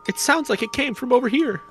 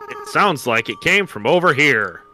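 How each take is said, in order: First: It is said in a lighter kid voice. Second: It is said in a normal adult voice.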